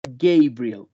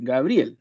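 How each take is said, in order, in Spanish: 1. El nombre se dice con pronunciación inglesa. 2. El nombre se dice con pronunciación española. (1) "si lo vemos en inglés, se pronunciaría Gabriel" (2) "Y en español es Gabriel"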